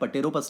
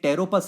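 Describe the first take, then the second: First: The word begins with a sounded p. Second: The word begins directly with t. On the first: The speaker calls it wrong. "पटेरोपस नहीं बोलते बच्चों" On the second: The speaker calls it right. "पी silent होता है"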